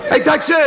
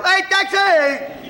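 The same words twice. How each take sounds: First: High, loud laughing taxi call; hailing a taxi. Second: Very high, slow drawn-out yell; hailing a taxi. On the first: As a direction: yell for a cab across the street. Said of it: "I don't talk like that". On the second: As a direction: stretch the call out like hailing a cab. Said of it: "I yell". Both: Retold or imitated.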